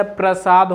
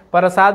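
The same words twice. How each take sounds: First: प्रसाद drawn out slowly with a joined "pr"; correct form. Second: प्रसाद with an extra vowel, "parasaad"; wrong form. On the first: Teacher giving students the correction, प्रसाद slowly said as "pra-saad". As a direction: say प्रसाद as "pra-saad", slow, no vowel after p. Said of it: "प्रसाद होता है". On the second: Teacher rejecting a common misspelling, प्रसाद said as "parasaad". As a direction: say प्रसाद as "pa-ra-saad", splitting the pr. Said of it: "प्रसाद नहीं होता है". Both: Shown as a demonstration.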